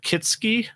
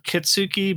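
First: The middle syllable is not stressed. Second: The middle syllable is stressed. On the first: The speaker calls it right. "Because you don't emphasize the middle syllable" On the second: The speaker calls it wrong. "it would be not Kitsuki"

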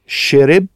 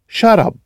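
First: It is said with a Cairene accent. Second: It is said with an Alexandrian accent.

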